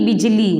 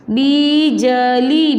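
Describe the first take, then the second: First: Said in the usual way. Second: बिजली very slowly, as बी...ज...ली; syllable by syllable. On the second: Shown as a demonstration. Teacher showing pupils the new word, syllable by syllable. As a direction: stretch each syllable of बिजली. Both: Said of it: "शब्द क्या बनेगा आपका?".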